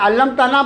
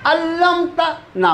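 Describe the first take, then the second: First: The word is said smoothly without any pause. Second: There is a short pause before the last syllable. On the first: "मैं अल्लमता ना पढ़ सकता हूँ उसको" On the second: "रुकता इसलिए कि आपको लगे कहाँ टूटता है वो लफ्ज़"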